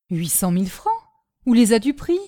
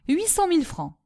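First: Puzzled echo, then a louder demand; taken aback, questioning tune; incredulous question. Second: High pitch falling at the end of "huit cent mille francs"; "huit cent mille francs" declared high, closing downward; firm offer. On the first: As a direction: echo the sum back with rising disbelief. Marion questions the offer in disbelief. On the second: Michu states his offer. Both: A narrator's reading.

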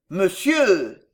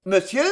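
First: MONSIEUR loud with a falling end; exclaimed address. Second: MONSIEUR short, rising at the end; questioning echo. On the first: Uncle correcting himself before Monsieur, exclaimed and falling. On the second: Nephew interrupting his uncle's Monsieur, rising question. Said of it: "interrompit le colonel en souriant". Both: A narrator's reading.

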